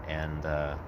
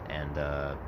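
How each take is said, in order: No difference in how they are said.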